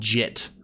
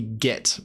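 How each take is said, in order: First: It begins with a soft j sound. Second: It begins with a hard g sound. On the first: The speaker calls it wrong. "It's not jit" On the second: The speaker calls it right. "git is definitely git"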